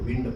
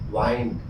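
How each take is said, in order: First: The vowel is a short 'ih' sound. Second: The vowel is a long 'eye' sound. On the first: It means moving air. "इसको विंड पढ़ते हैं, इसका मतलब हो जाएगा हवा" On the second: It means winding a clock. "वाइंड घड़ी में चाबी देना"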